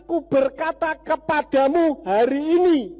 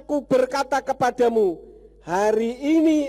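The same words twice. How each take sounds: First: The pause comes after 'hari ini'. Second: The pause comes before 'hari ini'. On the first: The telling happens today. The speaker calls it right. "yang benar sebetulnya letak komanya yang salah" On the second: Being together in paradise happens today. The speaker calls it wrong. "Jadi yang salah itu adalah meletakkan koma"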